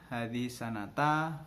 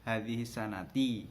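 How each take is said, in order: First: The last word ends with an a vowel. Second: The last word ends with an i vowel. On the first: "Nek na yo sanata" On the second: "nek ni yo sanati"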